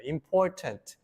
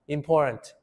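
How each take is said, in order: First: The middle T sound is clearly pronounced. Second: The middle T sound is dropped or swallowed.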